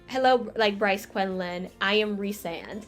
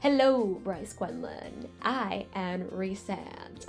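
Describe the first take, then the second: First: It is said in her normal voice. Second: It is said in a deep voice.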